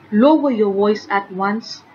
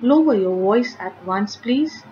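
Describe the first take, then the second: First: Forceful command. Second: Polite request. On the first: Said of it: "given with lot of force". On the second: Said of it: "It's a request". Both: Shown as a demonstration.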